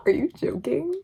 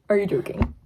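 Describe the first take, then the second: First: High, laughing disbelief; can't believe what she just read. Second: Said in the usual way. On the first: Real, not acted. Reader gushing over the kissing quote, high and incredulous.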